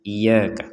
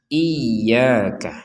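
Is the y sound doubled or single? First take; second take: single; doubled. First: The y sound is light and single. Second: The y sound is pressed and doubled. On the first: The speaker calls it wrong. "berarti tidak ada tanda tasydidnya" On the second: The speaker calls it right. "ini harus ditekan"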